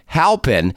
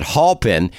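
First: "Halpin" said as HAL-pin, short a; "Halpin" with a short a, not aw; correct pronunciation. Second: "Halpin" said as HALL-pin; "Halpin" rhyming its first syllable with "hall"; mispronounced name. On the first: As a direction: say "Halpin" with the first syllable rhyming with "pal". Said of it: "That's the correct pronunciation". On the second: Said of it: "I was pronouncing it". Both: Shown as a demonstration.

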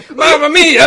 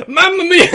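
First: Loud, high, hammed-up Italian; Italian accent. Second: High, loud cartoon Italian voice; Mario. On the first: Player asked if he is Italian, hammed-up Italian accent. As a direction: burst out as a mock Italian. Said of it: "Are you being Italian?". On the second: Player doing a video-game plumber on request, cartoon Italian accent. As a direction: squeal it out in exaggerated Italian. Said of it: "Can you do, uh, Mario?".

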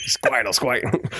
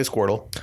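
First: Squawky impression of an actor as a cartoon creature; Joe Pesci. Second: Said in the usual way. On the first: Panelist demonstrates his casting pick, in a comic impression. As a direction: put on the actor's voice for the creature's name. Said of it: "I want Joe Pesci to play Squirtle".

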